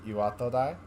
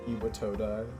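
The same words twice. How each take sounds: First: The syllables are even, with no strong stress. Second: One syllable is strongly stressed, English style. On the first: The speaker calls it right. "the actual pronunciation is probably something closer to Iwatodai" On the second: The speaker calls it wrong. "Iwatodai is kind of not a great pronunciation of that word"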